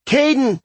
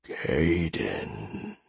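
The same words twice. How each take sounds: First: High, loud alarmed cry of a name; alarmed shout. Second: Low, soft, eerie monster voice; menacing, otherworldly call of a name; unnatural voice. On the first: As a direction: yell his name in alarm. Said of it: "Sarah shouted in alarm". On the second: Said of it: "in an unnatural voice". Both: A narrator's reading.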